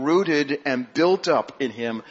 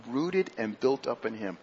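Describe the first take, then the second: First: Slow, with the weight on "built"; stress on built. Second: "rooted" stressed, voice dropping and falling; stress on rooted, softer. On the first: Congregation hears "built" drawn out and stressed. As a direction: lean into "built" as he reads the verse slowly. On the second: Preacher repeats the verse quietly, stressing "rooted". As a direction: lay weight on "rooted" and let the line sink. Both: Acted.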